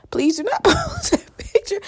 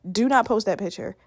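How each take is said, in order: First: Higher, slower plea with a laugh in the middle. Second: Said in the usual way. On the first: Real, not acted. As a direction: beg through laughter. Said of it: "I look chopped".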